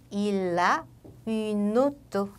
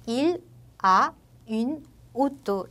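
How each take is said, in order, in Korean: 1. 단어들이 자음을 이어서 붙여 발음합니다. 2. 각 단어를 쉬면서 따로따로 발음합니다. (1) "자연스럽게 연음이 되기 때문에 il a une auto 이렇게 연음을 해주시면 됩니다" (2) "따로 끊게 되면"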